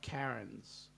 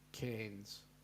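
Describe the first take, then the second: First: The name is said like the name Karen. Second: The name is said with the vowel of air. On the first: The speaker calls it wrong. "Not Karen's" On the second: The speaker calls it right. "the A I is pronounced as in air"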